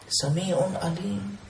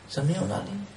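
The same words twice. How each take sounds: First: Sami'un Alim sung out long and slow; slow drawn-out. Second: Said in the usual way. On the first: Shown as a demonstration. Preacher to listeners, Sami'un Alim slowly drawn out. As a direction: stretch Sami'un Alim out slowly, each syllable held.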